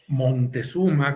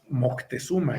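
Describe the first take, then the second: First: An n sound comes before the t. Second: A stressed k sound comes before the t. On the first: "con N" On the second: "enfatizando la C"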